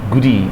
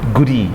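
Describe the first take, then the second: First: The two words are linked together. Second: The same.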